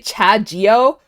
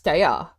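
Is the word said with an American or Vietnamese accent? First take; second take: American; Vietnamese. First: It is said with an American accent. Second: It is said with a Vietnamese pronunciation. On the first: "I read it with an American accent" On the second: "To to say in Vietnamese is"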